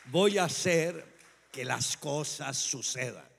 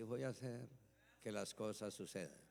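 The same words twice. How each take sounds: First: It is said with real belief and conviction. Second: It is said flatly, without conviction.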